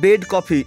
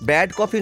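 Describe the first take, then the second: First: The first word has the mid vowel of 'bed'. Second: The first word has the open vowel of 'bad'. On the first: The speaker calls it right. "কথাটা ঠিক করে বল, বেড coffee" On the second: The speaker calls it wrong. "ব্যাড coffee নয়"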